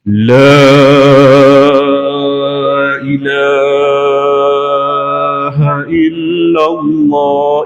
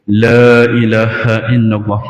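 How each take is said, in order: First: It is drawn out very slowly, like a call to prayer. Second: It is said at a steady pace, word by word.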